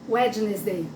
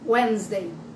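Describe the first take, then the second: First: Every written letter is pronounced in this word. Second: Some written letters are silent in this word. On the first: The speaker calls it wrong. "Se a gente só for ver a palavra, então eu ia pronunciar Wednesday" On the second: The speaker calls it right. "Como é que é quarta-feira em inglês?"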